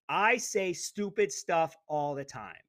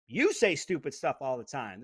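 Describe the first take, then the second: First: I punched, each word placed; stress on I. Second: You hit first and strongest, rest falling; You stressed, pointed at the listener. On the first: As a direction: lean hard on I, drawn out. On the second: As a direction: punch You, then let it fall. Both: Shown as a demonstration. Stressing who says stupid stuff.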